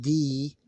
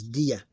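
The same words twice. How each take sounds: First: "di" with one long-held ee. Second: "dia" with a distinct ya after the di. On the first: Teacher showing what it is not, drawn-out di. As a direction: stretch "di" as a single long vowel. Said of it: "It's not di". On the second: Teacher showing two different consonants, clearly split dia. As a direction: say "dia" as di plus ya, not held. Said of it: "it's dia". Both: Shown as a demonstration.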